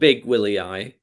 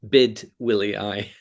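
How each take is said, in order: First: The first syllable ends with a 'g' sound. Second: The first syllable ends with a 'd' sound. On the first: The speaker calls it wrong. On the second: The speaker calls it right.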